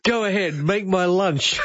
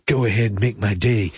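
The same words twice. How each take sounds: First: Mock movie threat, pitched up and stretched; catchphrase parody. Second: Low, lightly imitated tough-guy line; understated movie tough guy, pitched down; movie catchphrase. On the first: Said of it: "you come on and say". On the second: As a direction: drop the pitch for a mock film threat. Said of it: "So Daryl says, uh, "So Clint".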